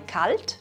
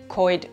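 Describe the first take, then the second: First: The L is pronounced as a clear consonant. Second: The L becomes an oi diphthong.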